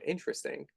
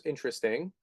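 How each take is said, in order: First: A hushed, understated nod to Mike's line; Mike's catchphrase. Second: A softly voiced Mike, intrigued; Mike's catchphrase. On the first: Retold or imitated. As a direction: let "Interesting." sink away quietly and knowingly. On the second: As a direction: muse "Interesting." quietly, curious and lilting upward. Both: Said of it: "That's Mike's line".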